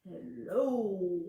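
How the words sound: It is said in a very low voice.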